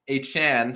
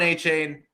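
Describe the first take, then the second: First: The last syllable sounds like 'chan'. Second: The last syllable sounds like 'chain'. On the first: The speaker calls it right. "this is my name. And so we will pronounce it that way" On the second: The speaker calls it wrong. "sorry, see, I'm it's already a force of habit"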